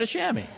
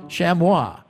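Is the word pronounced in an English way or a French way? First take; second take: English; French. First: The word has an everyday English pronunciation. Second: The word has a French pronunciation. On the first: "Who says chamois? A chamois, right?" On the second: "It's the French"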